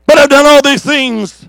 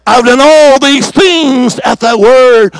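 First: Said in the usual way. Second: Drawn-out, weighty prayer line; slow solemn quote. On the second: Acted. Preacher quoting Elijah's prayer, slow and weighty. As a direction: lay each word down slowly.

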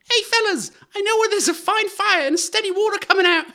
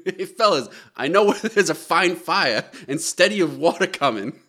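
First: Very high, loud squeaky urchin; little scamp. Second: Mock Boston accent, a bit louder; lightly acted kid with a Boston accent; excited Boston child. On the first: Acted. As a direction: pipe it out like an excited waif. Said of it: "can I hear it as a scamp". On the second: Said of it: "who has a strong Boston accent".

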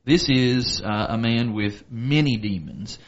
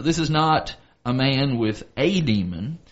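First: "many" stressed against a single one. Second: "a" said as a long "ay", set apart; stress on A. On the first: Teacher explains the name Legion, stress on "many". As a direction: lean on "many" to mark the true count. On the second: Teacher corrects the count of demons, stress on "a". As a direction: lean on "a" to mean just one. Contrast of one demon with many. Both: Shown as a demonstration.

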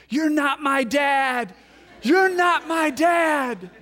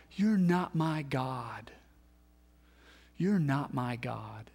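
First: High, loud, slow mock child's scream. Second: Slow, hushed whisper of despair; whispered cry. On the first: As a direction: shout it like a furious six-year-old. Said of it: "She starts screaming at me". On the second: Retold or imitated. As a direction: breathe it out, broken and quiet. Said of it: "and we cry out".

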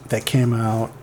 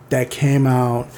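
No difference in how they are said.

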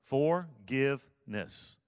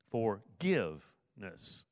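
First: Forgiveness drawn out slowly, every syllable even; syllables spelled out. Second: Forgiveness slow, leaning on the middle give; middle syllable stressed. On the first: Pastor teaching the word's syllables, slowly. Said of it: "forgiveness is a three-syllable word". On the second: Pastor showing the key middle syllable, give. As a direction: draw out Forgiveness and hit the give. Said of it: "the key to it is the middle syllable". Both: Shown as a demonstration.

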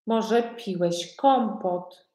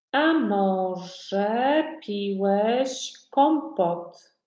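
First: Said in the usual way. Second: Words stretched right out for learners; very slow modelling. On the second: Shown as a demonstration. Teacher asks a learner about kompot, very slowly. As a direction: draw out each word of the question.

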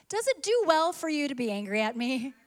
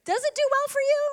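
First: Said in the usual way. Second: High, far-off pleading echo of God; God's voice, echoing. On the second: Retold or imitated. Preacher voicing God asking the church, high and pleading. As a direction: let God's question float up high. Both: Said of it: "he has asked us".

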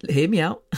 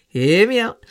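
First: Said in the usual way. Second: "Hear me out" said laughing, higher and louder; laughing plea. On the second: Real, not acted. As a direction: laugh while pleading to be heard.

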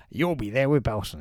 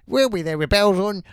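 First: Said in the usual way. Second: Lightly voiced, louder catchphrase; a hint of the cheery sweep. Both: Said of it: "He's nailed the catchphrase".

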